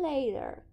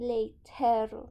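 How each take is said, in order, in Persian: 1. صامت وسط یک صدای d خفیف است. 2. صامت وسط یک صدای t سخت است. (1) "میگیم later یه جور یه ده خفیف تلفظ میکنیم" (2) "ما نمیگیم later"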